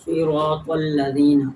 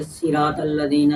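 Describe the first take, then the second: First: صراط الذین slowly with a full heavy ص; heavy correct reading. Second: صراط الذین with a light, thin ص; wrong thin reading. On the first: Teacher shows students the correct heavy recitation. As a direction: read صراط الذین slowly, thick and emphatic. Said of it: "ہم نے پر پڑھنا ہے". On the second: Teacher imitates a wrong recitation of صراط الذین. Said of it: "تو یہ غلط ہے". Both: Shown as a demonstration.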